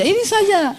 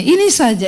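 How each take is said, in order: First: Higher repeat. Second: Said in the usual way. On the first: Shown as a demonstration.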